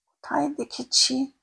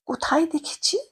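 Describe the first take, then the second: First: Slow, drawn-out puzzled murmur; slow musing. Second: Whispered to herself. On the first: Narrator slowly searches her memory for the familiar face. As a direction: linger on each word as memory stirs. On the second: Narrator whispers, trying to place the old woman's face. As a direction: wonder under your breath who she is. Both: Acted.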